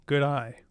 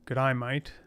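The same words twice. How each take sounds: First: Said in the usual way. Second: Light Australian accent, "mate" said like "mite"; a playful hint of Australian twang. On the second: Shown as a demonstration. Showing the viewer how to speak Australian, light Australian accent. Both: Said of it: "That's how you speak Australian".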